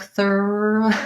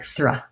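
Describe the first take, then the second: First: The cluster is said slowly and stretched out. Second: The cluster is said quickly and run together. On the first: The speaker calls it wrong. "if I went really slow, it might sound kind of like thur" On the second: The speaker calls it right. "I want to go really fast and have it sound like thruh"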